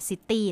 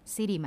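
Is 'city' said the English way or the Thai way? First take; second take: Thai; English. First: It is said with a Thai-style pronunciation. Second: It is said with an English-style pronunciation. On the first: The speaker calls it wrong. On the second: The speaker calls it right.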